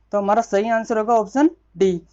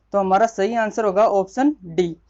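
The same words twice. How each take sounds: No difference in how they are said.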